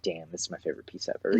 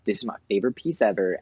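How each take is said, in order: First: Softer, lower, fast and matter-of-fact; a hushed, flat-toned damn of admiration; deadpan awe. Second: Fast, bright gush over a new piece; thrilled quick rave about your favorite piece; gushing excitement. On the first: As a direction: say it quietly, like it's no big surprise now. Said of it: "you're like". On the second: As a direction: rave about it like it's the best ever. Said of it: "Where you're like, "Oh my God". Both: Retold or imitated.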